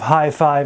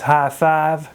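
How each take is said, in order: First: The vowel glides from one sound to another. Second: The vowel stays one steady, unglided sound.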